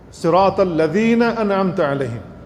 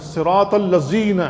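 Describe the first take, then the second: First: Slow Quranic recitation of الذین with dh, not z; correct recitation. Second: الذین said with a z sound, "alla-zeen"; slow mock-wrong الذین with ز for ذال; common mistake. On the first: Imam showing worshippers the correct ذال, slow and careful. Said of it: "تو زال ہے وہاں پر". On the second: Imam imitating worshippers who misread the ذال, slowly. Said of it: "اب اس کو زا کے ساتھ پڑھتے ہیں". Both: Shown as a demonstration.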